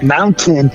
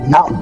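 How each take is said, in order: First: The middle T is clearly pronounced. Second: The middle T is dropped. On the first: "instead of saying mountain" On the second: "young kids these days don't pronounce the T's in the middle of a word"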